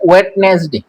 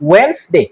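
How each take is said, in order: First: The d in the middle is pronounced. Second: The d in the middle is silent. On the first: The speaker calls it wrong. "এটাকে অনেকে উচ্চারণ করে ওয়েডনেসডে" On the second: The speaker calls it right. "এখানে ডি এটা silent থাকবে"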